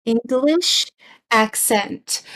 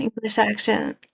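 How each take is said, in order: First: "English accent" re-said slowly, word by word; careful correction. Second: "accent" slurred into "ak-shun"; tongue-tied slip. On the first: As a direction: pronounce "accent" cleanly as "ak-sent", after a pause. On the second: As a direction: fumble "accent" so it comes out like "action". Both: Real, not acted. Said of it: "Blah, blah, blah".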